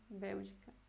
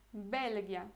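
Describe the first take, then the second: First: Said in the usual way. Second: "Bélgia" with a hard g, the Polish way; "Bélgia" said as BEL-gya, hard g; Polish Belgia. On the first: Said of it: "não lembre que é Bélgia em polonês". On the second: Shown as a demonstration. Teacher contrasting Polish "Bélgia" with Portuguese, hard g. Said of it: "Bélgia é Bélgica".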